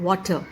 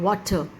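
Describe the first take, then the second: The two takes are said the same way.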